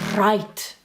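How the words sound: The R is strongly rolled and exaggerated. The speaker calls it wrong. "We won't exaggerate. We won't say"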